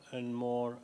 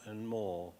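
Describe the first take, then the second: No difference in how they are said.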